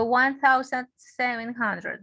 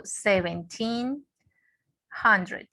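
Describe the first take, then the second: First: "one thousand seven hundred" read as one full number; full number "one thousand seven hundred", not split into pairs; wrong year reading. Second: "seventeen hundred" split into two pairs, rising on "seventeen" and falling on "hundred"; correct year reading. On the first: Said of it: "Yo no digo". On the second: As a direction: say "seventeen", pause, then "hundred". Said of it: "no, yo digo". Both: Shown as a demonstration.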